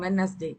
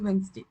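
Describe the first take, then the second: First: The middle d sound is clearly pronounced. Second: The middle d sound is left out. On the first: The speaker calls it wrong. "நம்ம சொல்லுவோம் வெட்னஸ்டே" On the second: The speaker calls it right. "அது வெட்னஸ்டே கிடையாது, வென்ஸ்டே"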